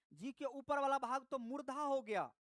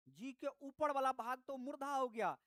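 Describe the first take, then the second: No difference in how they are said.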